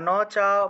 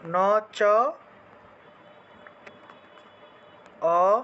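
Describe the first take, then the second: First: The vowel is said as one long sound. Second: The long vowel is split into two short vowels. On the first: "বা ন চা বলতে পারেন" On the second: "এই যে আকারটাকে ভাঙলে অ এর মতো উচ্চারণ হবে"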